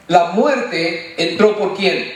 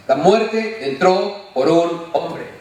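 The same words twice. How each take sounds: First: Muerte drawn out, the question hanging at the end; slow it down and stress muerte. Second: Muerte stretched long and slow, the whole line drawn out; slow stress on muerte. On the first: Preacher quizzing his congregation, muerte drawn slow. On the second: Preacher to church, stretching muerte to drive the point home. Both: Shown as a demonstration.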